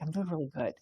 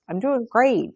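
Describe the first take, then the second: First: Quiet, understated sincerity; sincere. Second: High, singsong mock cheer; put-on cheerfulness. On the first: Acted. Showing the class what truly meaning it is like, quietly sincere. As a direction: drop the front and say it softly. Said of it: "is really like". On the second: Showing the class an empty polite answer, falsely cheerful. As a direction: pretend brightly that all is great. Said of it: "But, like, you feel like crap".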